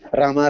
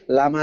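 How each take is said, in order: First: The word begins with an R sound. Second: The word begins with an L sound. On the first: "The mother says" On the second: "The child cannot say Ra. He'll say Lama"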